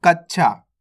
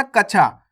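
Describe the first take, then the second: First: कक्षा said as "kach-chhaa", stopping on a quick half ch; half-letter reading. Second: कक्षा said as "ka-chhaa", with no held consonant in the middle; wrong reading. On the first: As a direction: catch the ch in कक्षा before releasing chhaa. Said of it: "आधा चा का उच्चारण तेजी के साथ". (कक्षा में आधा च तेज़ी से, फिर छा) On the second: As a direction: run कक्षा through without doubling the ch. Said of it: "आपको ऐसे नहीं पढ़ना". (कक्षा को बिना आधे च के "कछा" पढ़ें) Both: Shown as a demonstration.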